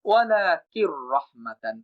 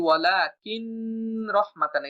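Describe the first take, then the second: First: ওয়ালাকির রহমাতান slow, with a merged doubled R and no N; correct recitation. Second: ওয়ালাকিন রহমাতান with a clear N kept; wrong pronunciation. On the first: Teacher models the correct slow tajweed reading. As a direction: glide ওয়ালাকির straight into রহমাতান, R not held. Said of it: "বরং বলতে হবে". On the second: Teacher demonstrates the incorrect reading with nun. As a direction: say the N of ওয়ালাকিন separately. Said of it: "এটা ভুল উচ্চারণ". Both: Shown as a demonstration.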